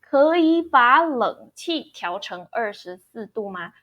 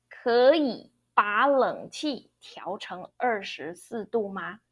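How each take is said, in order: First: 可以把冷气 with 可, 以 and 把 all rising second tones, 冷 third. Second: 可以把冷气 with 可 second, 以 third, 把 second, 冷 third; second third second third tones. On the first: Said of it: "second, second, second, third". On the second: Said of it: "One is second, third, second, third". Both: Shown as a demonstration.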